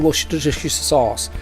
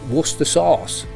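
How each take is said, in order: First: The name is said with many syllables. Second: The name is said with few syllables. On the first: "We don't say Worcestershire sauce because there's a million syllables in it" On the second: "We just say Worcester sauce. Simple"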